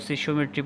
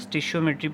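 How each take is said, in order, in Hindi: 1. शब्द 'sish' ध्वनि से शुरू होता है। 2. शब्द 'stish' ध्वनि से शुरू होता है। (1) "कुछ इसको सिशियोमेट्री पढ़ते हैं" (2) "कुछ लोग इसको स्टिशियोमेट्री पढ़ते हैं"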